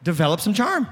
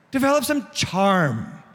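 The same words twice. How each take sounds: First: Said in the usual way. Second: Slow, stretched "charm" with a falling end; drawn-out CHARM. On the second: Shown as a demonstration. Preacher repeats his point to the congregation, drawn-out charm. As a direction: linger on the word "charm".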